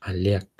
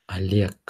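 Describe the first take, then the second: Both takes have the same delivery.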